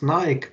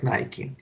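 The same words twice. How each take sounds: First: It is said in a non-American way. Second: It is said in the American way. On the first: "I pronounced as Nike" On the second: "in U S they uh, are used to pronouncing it like Nike"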